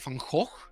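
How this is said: The name is said with a Dutch-style G sound. This is how people there say it. "they would say Van Gogh"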